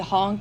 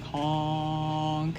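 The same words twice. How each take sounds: First: The word is spoken in a plain voice. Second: The word imitates a loud foghorn blast. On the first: The speaker calls it wrong. "they don't say honk" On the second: The speaker calls it right. "it's more like honk"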